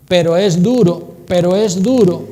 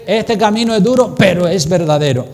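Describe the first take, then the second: First: "duro" punched loud and heavy; stress on duro. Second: "pero es verdadero" said loud and firm, landing on "verdadero"; stress on verdadero. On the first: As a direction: hammer the word "duro" as the wrong emphasis. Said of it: "estás poniendo el énfasis". (énfasis fuerte en "duro") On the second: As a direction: proclaim "verdadero" with conviction. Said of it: "Mejor que diga". (énfasis firme en "verdadero") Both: Shown as a demonstration.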